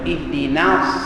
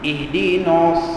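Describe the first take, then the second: First: The n sound is thin and light. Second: The n sound is thick and heavy. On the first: The speaker calls it right. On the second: The speaker calls it wrong.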